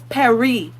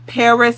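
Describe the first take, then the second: First: It is said in a French accent. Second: It is said in an English accent.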